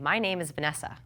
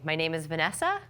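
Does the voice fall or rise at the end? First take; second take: fall; rise. First: The voice falls at the end like a statement. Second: The voice rises at the end like a question. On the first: It sounds like a confident statement. The speaker calls it right. "and instead saying ... Saying it, don't ask it" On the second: It sounds like asking rather than stating. The speaker calls it wrong. "We're going to try to avoid the question inflection. So not saying"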